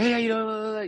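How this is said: It sounds loud, aggressive and overly energetic.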